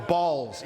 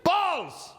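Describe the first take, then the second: First: Said in the usual way. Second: Very high, drawn-out goofy call; silly high-pitched outburst; wacky shout. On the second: Acted. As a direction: burst out with absurd glee. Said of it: "going up and saying".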